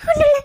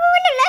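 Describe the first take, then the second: First: Loud sobbing denial; crying loudly, brushing him off. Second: Higher and louder, laughing through sobs; tearful wail; crying. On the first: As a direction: choke it out through tears, louder. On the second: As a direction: sob the denial again. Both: Acted. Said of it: "ஏன் அழுகுற?".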